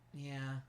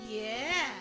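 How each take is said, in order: First: It is said flatly, without enthusiasm. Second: It is said with more enthusiasm.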